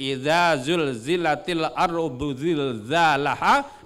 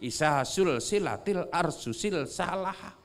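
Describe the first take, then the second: First: The verse is said with 'z' sounds. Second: The verse is said with 's' sounds. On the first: "Jadi kalau mengaji" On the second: "orang Bugis yang tidak pernah mengaji makharijul huruf"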